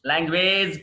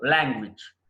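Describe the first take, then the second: First: లాంగ్వేజ్ with a long "wayj"; wrong pronunciation. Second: లాంగ్వేజ్ with a short "wij"; correct pronunciation. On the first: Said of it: "కాదు". (లాంగ్వేజ్ చివర "వేజ్" అని తప్పుగా) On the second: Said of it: "లాంగ్వేజ్ కాదు". (లాంగ్వేజ్ చివర "విజ్" అని) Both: Shown as a demonstration.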